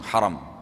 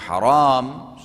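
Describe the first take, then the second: First: The second vowel is short. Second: The second vowel is long. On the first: It means honored or sacred. "ha ra mim dan dibaca langsung haram" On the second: It means forbidden. "ha ra alif mim, dibaca haram, sudah lain artinya"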